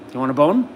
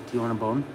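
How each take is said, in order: First: Rising teaser question to a pet; excited coaxing. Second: Low, soft question to a pet; soft coaxing. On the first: Owner offers his dog a bone, excitedly coaxing. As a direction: get the dog worked up with the question. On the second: Owner offers his dog a bone, softly coaxing. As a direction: tease it quietly, almost confidentially. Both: Real, not acted.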